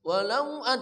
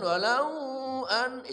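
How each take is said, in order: First: The 'au' vowel is said short and quick. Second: The 'au' vowel is drawn out long. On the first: The speaker calls it right. "cepat aja" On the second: The speaker calls it wrong. "jangan walau an, itu pelanggaran. Jangan dilamakan"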